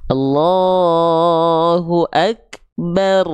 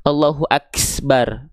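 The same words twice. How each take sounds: First: Slow chanted AKBAR, k released with a small puff of air; breath only, no S. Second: AKBAR said "aks-bar" with a hissed s after the k; S leaking into Akbar. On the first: Teacher giving the correct recitation, Akbar chanted with breath instead of S. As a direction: draw out Allahu, then breathe lightly after the k in Akbar. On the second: Teacher showing the mistake, Akbar as "aksbar". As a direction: slip a hiss between k and bar in Akbar. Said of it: "nggak ada huruf S". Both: Shown as a demonstration.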